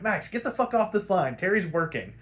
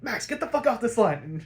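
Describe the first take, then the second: First: A mildly raised, curt cut-off; mild gruff dismissal; curt brush-off. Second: Gruff shout. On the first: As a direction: brush her off the line. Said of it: "Bruce is like". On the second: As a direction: bark her off the line at full voice. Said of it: "and Bruce is like". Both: Retold or imitated.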